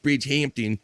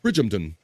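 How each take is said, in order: First: Bridgehampton with a full, clear "HAMP-tin"; wrong pronunciation. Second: Bridgehampton swallowed into "BRIDJ-um-tun"; posh proper pronunciation. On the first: Host showing how not to say it, Bridgehampton with full "hamp". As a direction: sound out the second half of Bridgehampton as "hamp-tin". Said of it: "I know it's not Bridgehampton". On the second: Host showing the proper way, Bridgehampton as posh "BRIDJ-um-tun". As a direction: squash the "hamp" in Bridgehampton down to "um". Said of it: "You have to say it in the". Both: Shown as a demonstration.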